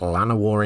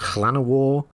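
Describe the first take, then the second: First: The name is said with an English pronunciation. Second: The name is said with a Welsh pronunciation. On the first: "I don't have a Welsh tongue, so I will occasionally just pronounce it Llanawar instead" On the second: "the correct pronunciation is Llanawar in the Welsh way"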